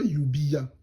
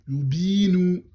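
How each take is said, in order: First: A separate 'ya' syllable follows the short 'bi'. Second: The 'bi' vowel is held long without 'ya'. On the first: The speaker calls it wrong. "on dit pas yubiya" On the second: The speaker calls it right. "on prolonge directement"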